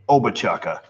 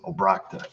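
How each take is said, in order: First: The surname is said in a mangled form. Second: The surname is said in its owner's form. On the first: The caller does not know the family. The speaker calls it wrong. "If you're a telemarketer, you pronounce my last name" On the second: This is how the family says it. The speaker calls it right. "if you're just me, you pronounce it"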